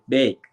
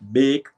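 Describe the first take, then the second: First: The word is said with an American accent. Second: The word is said with a Jamaican accent. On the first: This is how people here say it. "they would say bake" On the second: This is how the speaker would say it. "if I was supposed to say bake"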